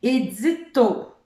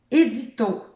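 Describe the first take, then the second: First: Édito said slowly and loud, stress on the added to; teacher showing the game; slow careful demo. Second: Édito said again, loud and even; teacher repeating the word; repeated demo. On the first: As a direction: sound out Édito, landing on to. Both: Shown as a demonstration. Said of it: "je le fais avec mon prénom".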